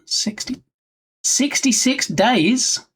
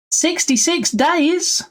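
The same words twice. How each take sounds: First: Slow rising disbelief, higher; surprised. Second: Much higher and slow, near squeak; bigger disbelief. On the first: Streamer reacting to a dev's timeline, surprised. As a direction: stretch out the question in surprise. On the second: Streamer repeating the dev's timeline, astonished. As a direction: repeat it, even more amazed. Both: Real, not acted.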